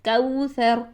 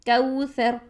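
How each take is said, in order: First: The first vowel glides softly from a to u. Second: The first vowel glides softly from a to u.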